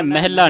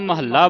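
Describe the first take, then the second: First: ਮਹਿਲਾ as meh-la, single l; wrong pronunciation. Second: ਮਹੱਲਾ as ma-hal-la, doubled l; correct pronunciation. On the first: Teacher showing what not to say, shortened mispronunciation. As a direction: squeeze ਮਹਿਲਾ into two syllables. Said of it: "ਨਹੀਂ ਬੋਲਣਾ". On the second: Teacher telling children the heading, doubled consonant. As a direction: give ਮਹੱਲਾ three syllables, lean on ll. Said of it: "ਇਸ ਨੂੰ ਮਹੱਲਾ ਬੋਲਣਾ ਹੈ". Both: Shown as a demonstration.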